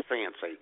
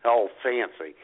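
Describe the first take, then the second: First: Said in scare quotes, quieter; mock "fancy" in scare quotes, dropped low; air quotes. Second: Said in the usual way. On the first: Shown as a demonstration. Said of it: "In quotation marks, fancy". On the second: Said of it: "In quotation marks".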